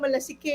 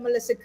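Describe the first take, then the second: First: The word ends without a clear final 'e' vowel. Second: The word ends with a clear final 'e' vowel. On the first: The speaker calls it wrong. "mali ang pronunciation ko" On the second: The speaker calls it right. "'yun pala malasike"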